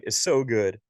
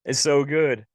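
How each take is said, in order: First: Said in the usual way. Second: "It's so good" much higher and louder; emotional. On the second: Real, not acted. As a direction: let "It's so good" burst out with feeling.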